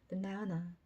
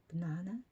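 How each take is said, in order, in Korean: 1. 가운데 음절에 힘을 주고, 양쪽 모음은 슈아 소리로 약하게 내요. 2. 가운데 음절에 힘을 주고, 양쪽 모음은 슈아 소리로 약하게 내요.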